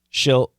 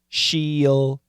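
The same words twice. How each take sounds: First: The word is said in one syllable. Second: The word is said in two syllables. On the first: "But we reduce it into one" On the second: "perfect pronunciation, two syllables"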